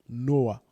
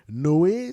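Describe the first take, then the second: First: The name ends with an 'ah' vowel sound. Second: The name ends with an 'ay' vowel sound. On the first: This is the form used in the speaker's own language. "dans notre langue, on dit Noah" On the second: This is the French form of the name. "peut-être qu'on va dire ça en français"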